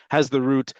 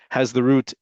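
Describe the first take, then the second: No difference in how they are said.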